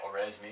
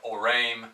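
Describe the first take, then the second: First: The name is said in an English form. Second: The name is said in its original, non-English form. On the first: "in English, we might just say Oresme" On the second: "it's pronounced like Orame"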